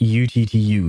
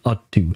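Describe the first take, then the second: First: The ending is spelled out as the letters T, U. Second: The ending is said as the word two. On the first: The speaker calls it right. "I will keep pronouncing it U T T U" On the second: The speaker calls it wrong. "I don't like the pronunciation U T two"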